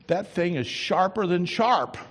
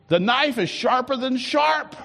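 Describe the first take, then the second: First: Said in the usual way. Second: Sharp punched, high and loud; preached repeat. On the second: Acted. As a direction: hammer it home at full voice. Repeated, much higher and louder.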